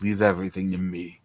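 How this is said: It is said in a dead, lifeless tone.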